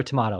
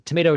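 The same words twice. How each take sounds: First: "tomato" with a broad A, tuh-MAH-toh; British-style "tomato", middle vowel as in "father". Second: "tomato" with a long A, tuh-MAY-toh; American-style "tomato", middle vowel as in "may". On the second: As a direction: say "tomato" to rhyme with potato. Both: Shown as a demonstration. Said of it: "some people say tomato".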